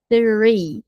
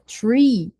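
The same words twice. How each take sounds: First: It begins with a th sound. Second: It begins with a plain t sound. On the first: It means the number three. The speaker calls it right. "o som do T H. língua entre os dentes" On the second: It means a tree. The speaker calls it wrong. "Se você fala tree, sai árvore"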